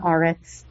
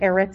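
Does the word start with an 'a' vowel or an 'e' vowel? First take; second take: a vowel; e vowel. First: The word begins with an 'a' vowel. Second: The word begins with an 'e' vowel. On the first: The word marks a pause, like underlining for emphasis. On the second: The word is in its ordinary form within the phrase.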